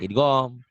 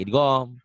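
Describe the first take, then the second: First: The second vowel sounds like a rounded o. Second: The second vowel sounds like a rounded o.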